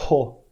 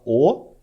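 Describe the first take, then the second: First: Ho with a puff of breath before the vowel; aspirated ho. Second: O with no breath before it, a clean vowel; just O, no puff of air; unaspirated o. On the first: Teacher has students feel the breath on Ho. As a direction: blow air as you start Ho. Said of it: "soprando enquanto fala o som do O". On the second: Teacher has students feel no air on plain O. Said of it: "bota a mão na frente da boca e fala O". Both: Shown as a demonstration.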